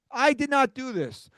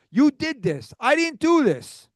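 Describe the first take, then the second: First: "did not" split apart, with "not" hit hard and high; stress on not. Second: Real exasperation, pointing the finger; agitated. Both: Real, not acted. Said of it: "be agitated".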